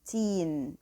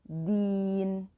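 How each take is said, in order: First: The first consonant sounds close to a T. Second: The first consonant is a pure D sound. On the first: The speaker calls it wrong. "It shouldn't be teen, okay? It shouldn't be approaching the T sound" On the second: The speaker calls it right. "It should be a pure D sound. So deen"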